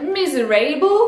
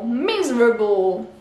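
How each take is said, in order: First: The middle a is said as a full vowel. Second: The middle a is said as a reduced vowel. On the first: The speaker calls it wrong. "on aurait tendance à se dire miserable" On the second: The speaker calls it right. "Le A mm, mm, n'est pas prononcé A"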